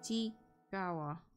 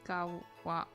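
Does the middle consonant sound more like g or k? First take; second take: g; k. First: The middle consonant sounds closer to a g. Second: The middle consonant sounds like a k.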